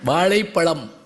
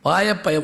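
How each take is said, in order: First: The ழ sounds are said as retroflex zh. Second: The ழ sounds are said as plain y. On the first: The speaker calls it right. "வாழைப்பழம் சொல்லு" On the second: The speaker calls it wrong. "மெட்ராஸில் சுத்தமாக வராது"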